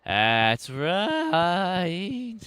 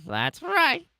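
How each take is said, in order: First: Said in the usual way. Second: Squeaky pet voice, high up; high cat voice. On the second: Pretend. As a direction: speak it as a cute cat would.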